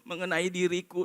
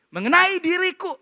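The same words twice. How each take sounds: First: It is read with a gloomy, unexcited tone. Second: It is read with an excited, triumphant tone. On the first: Facing death is something sad. The speaker calls it wrong. "Bukan begitu bacanya" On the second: Facing death is a victory. The speaker calls it right. "Saya pakai intonasi yang mungkin Paulus pakai intonasi waktu dia tulis. Saya yakin dia exciting sekali"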